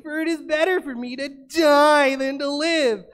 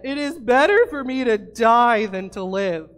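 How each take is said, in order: First: It is said in a whiny, complaining voice. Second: It is read in a plain, normal voice.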